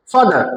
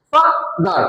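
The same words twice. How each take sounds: First: Said in the usual way. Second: FA-DAR in two separate beats, higher pitch; broken into syllables. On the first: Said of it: "দুইবার উচ্চারণ করতে হয়". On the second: Shown as a demonstration. Teacher shows the class two syllables, ফাদার split apart. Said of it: "ভেঙে উচ্চারণ".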